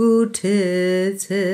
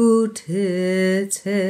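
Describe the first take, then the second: No difference in how they are said.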